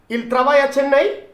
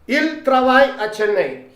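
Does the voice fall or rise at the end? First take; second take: rises; falls. First: The voice rises at the end. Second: The voice falls at the end.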